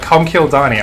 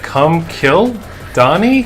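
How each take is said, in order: First: It runs together without an inner pause. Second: It has a pause inside the phrase.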